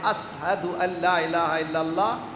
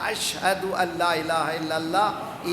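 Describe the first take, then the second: First: The word ashhadu is said with an 's' sound. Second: The word ashhadu is said with an 'sh' sound. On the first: "जब बिलाल कहता है" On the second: This is how God hears it, as correct. "अल्लाह सुनता है"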